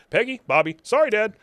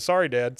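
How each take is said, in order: First: Quick louder run of lines; rapid recap. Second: Said in the usual way. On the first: Shown as a demonstration. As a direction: rattle it off boom boom boom. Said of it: "So we get". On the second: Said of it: "Bobby says".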